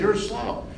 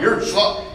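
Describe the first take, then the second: First: It is said calmly, as a plain fact. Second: It is said harshly, like an insult.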